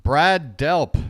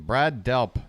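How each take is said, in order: First: Loud, triumphant shout of the name; excited outburst. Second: Said in the usual way. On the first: Real, not acted. Streamer finally recalls the singer and shouts it out. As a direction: blurt it out like you finally got it.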